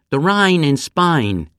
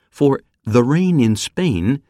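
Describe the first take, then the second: First: Slow, higher Cockney vowel: "Rhine" with a wide "ai"; Cockney "The Rhine in Spain", slow and raised; Cockney accent. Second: Said in the usual way. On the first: Shown as a demonstration. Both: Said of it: "they say".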